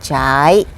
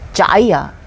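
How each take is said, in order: First: The word is said with a hooked, dipping tone. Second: The word is said with a low tone. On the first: It means to flow. "성조가 고리예요" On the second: It means to run. "성조 낮아요"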